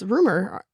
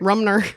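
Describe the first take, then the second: First: No n sound follows the m. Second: An n sound follows the m. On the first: The speaker calls it right. "It's Rumor. R U M E R" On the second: The speaker calls it wrong. "What did I call her?"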